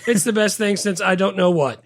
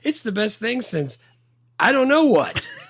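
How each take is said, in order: First: The line is read out flatly, without expression. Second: The line is delivered naturally with expression. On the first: The speaker calls it wrong. "that guy was just like reading it" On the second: The speaker calls it right. "Like that's how you say that"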